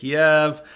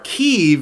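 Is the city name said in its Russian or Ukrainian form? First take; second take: Russian; Ukrainian. First: The name is said in its Russian-derived form. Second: The name is said in its Ukrainian form. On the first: It follows the older Russian naming of the city.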